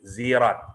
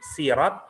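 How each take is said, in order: First: The word begins with a z sound. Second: The word begins with an s sound. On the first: "bisa dibaca zai" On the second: "bisa dibaca sin"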